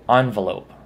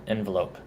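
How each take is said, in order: First: "envelope" said ON-vuh-lope; first syllable of "envelope" as in "on"; ON-velope pronunciation. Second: "envelope" said EN-vuh-lope; first syllable of "envelope" as in "pen"; EN-velope pronunciation. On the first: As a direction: say "envelope" starting with AHN. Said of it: "I try to mainly say". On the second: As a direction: say "envelope" starting with EHN. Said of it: "rather than". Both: Shown as a demonstration.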